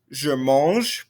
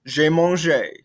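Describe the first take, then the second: First: "mange" ending on its consonant, final E silent. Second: "mangé" ending on a clear "ay" sound; pronounced final É. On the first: French teacher demonstrating the present tense, final E of "mange" left silent. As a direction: say "mange" as one syllable, no E sound at the end. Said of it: "present tense". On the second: French teacher demonstrating the past tense, final É of "mangé" fully pronounced. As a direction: sound out the last vowel of "mangé" as a second syllable. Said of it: "there is an accent, so we need to pronounce it". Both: Shown as a demonstration.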